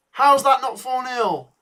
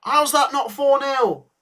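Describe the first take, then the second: First: Higher, louder, slower cry of disbelief, said once more; drawn-out howl of disbelief; disbelieving outburst. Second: Higher, louder, slower cry of disbelief; can't believe they missed it; stretched-out howl of disbelief at the miss; disbelieving outburst. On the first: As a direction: still can't believe the miss. Repeats disbelief at missed chance. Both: Real, not acted.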